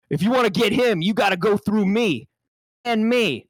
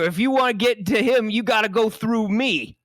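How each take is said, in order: First: Higher mock tough guy, laughing in; hammed-up tough line. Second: Hammed-up tough line. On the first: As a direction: take two of the tough line. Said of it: "we're gonna go for another take". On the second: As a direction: lean in like a movie tough. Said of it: "reenact this powerful moment".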